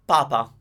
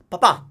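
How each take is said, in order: First: "papa" stressed on the first PA; stress on first syllable. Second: "papa" stressed on the final PA; stress on last syllable. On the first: Teacher contrasting two words for learners, "papa" stressed up front. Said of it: "where to stress the word". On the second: Teacher contrasting it with the Pope word, "papa" stressed at the end. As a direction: punch the second syllable of "papa". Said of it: "as you can hear". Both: Shown as a demonstration.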